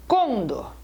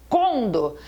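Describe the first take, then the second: The two takes are said the same way.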